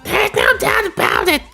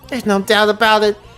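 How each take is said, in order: First: It is said in a put-on Toad voice. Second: It is said in a normal voice.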